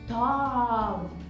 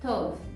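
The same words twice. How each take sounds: First: The o vowel is said very open. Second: The o vowel is said closed, not open. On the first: The speaker calls it wrong. "se o som de O muito aberto, não é correto" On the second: The speaker calls it right. "um O forte, mas não aberto"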